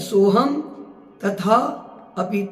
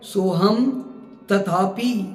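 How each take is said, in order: First: The words are split apart with small breaks. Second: The words are run together without a break. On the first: "ऐसे होगा" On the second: "ऐसे नहीं"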